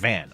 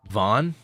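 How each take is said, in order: First: The vowel sounds like the one in cat. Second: The vowel sounds like the one in father. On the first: This is how people reading the spelling would say it. The speaker calls it wrong. "they're going to pronounce it" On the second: This is how the name is meant to be said. The speaker calls it right. "like that"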